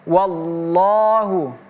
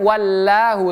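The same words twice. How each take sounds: First: The L is thick and heavy. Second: The L is thin and light. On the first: The speaker calls it right. "tebal di sini" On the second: The speaker calls it wrong. "bukan wallahu"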